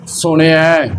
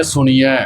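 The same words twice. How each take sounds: First: "ਸੁਣਿਐ" with a short i gliding into ai; sihari pronunciation. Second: "ਸੁਣੀਐ" with a long ee before the ending; bihari mispronunciation. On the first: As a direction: keep the i brief in "ਸੁਣਿਐ". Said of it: "ਜੇ ਅਸੀਂ ਸਿਹਾਰੀ ਲਾਈਏ". ("ਸੁਣਿਐ" ਸਿਹਾਰੀ ਨਾਲ) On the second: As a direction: stretch the i in "ਸੁਣੀਐ" to ee. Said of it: "ਬਿਹਾਰੀ ਦੇ ਨਾਲ". ("ਸੁਣੀਐ" ਬਿਹਾਰੀ ਨਾਲ) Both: Shown as a demonstration.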